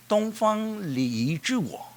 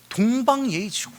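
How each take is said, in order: First: Slow, stretched-out proverb; drawn-out. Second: Said in the usual way. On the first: Shown as a demonstration. Preacher spelling out the proverb, slow and drawn out. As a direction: draw out each syllable slowly.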